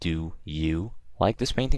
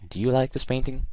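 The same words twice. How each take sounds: First: The words 'do you' are stressed. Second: The words 'do you' are unstressed and quick.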